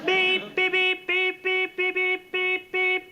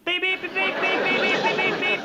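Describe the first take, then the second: First: The beeps are said at a slower pace. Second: The beeps are said at a quicker pace.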